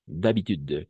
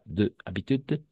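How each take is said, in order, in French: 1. On le prononce comme un seul mot, le « de » est élidé. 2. « De » et « habitude » se prononcent comme des mots séparés. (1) "comme un seul mot" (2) "pas de habitude"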